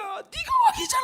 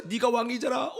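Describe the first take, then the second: First: Very high screamed accusation; soul shouting. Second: Restrained repeat of the inner rebuke; pointed charge, without screaming; accusing. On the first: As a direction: inner voice shrieking a rebuke. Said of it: "영혼이 막 소리치는 거야". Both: Retold or imitated.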